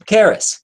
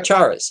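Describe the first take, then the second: First: The name begins with a 'k' sound. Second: The name begins with a 'ch' sound. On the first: The speaker calls it right. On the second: The speaker calls it wrong.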